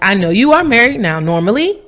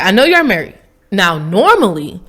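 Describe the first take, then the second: First: The pause comes after "now". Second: The pause comes before "now".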